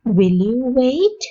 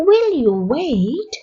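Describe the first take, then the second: First: Slow question rising at the end; slow model question. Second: Slow question with a stressed "will"; slow repeat, stress on will. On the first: Teacher modelling a polite question for learners, slow. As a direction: ask it slowly, lifting the last word. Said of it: "model question slowly". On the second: Teacher repeating the question slowly, stressing will. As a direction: lean on "will", then let it rise. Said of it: "repeat slowly". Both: Shown as a demonstration.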